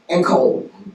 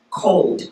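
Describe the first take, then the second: First: The last consonant of the blend is dropped. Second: The final consonant blend is fully pronounced. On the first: "we take off that last consonant" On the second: "In mainstream language ... it's pronounced"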